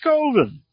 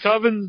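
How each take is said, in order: First: The word does not rhyme with 'oven'. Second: The word rhymes with 'oven'. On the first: The speaker calls it right. "It's pronounced Coven" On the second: The speaker calls it wrong. "that sounds like oven"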